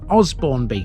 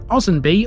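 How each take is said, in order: First: The B in the middle is clearly pronounced. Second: The B in the middle is left out. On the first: This is how the name reads from its spelling. "a glance at the name of this place will probably lead you in the direction of" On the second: This is how local people say the name. "most people seem to drop or even forget the first B"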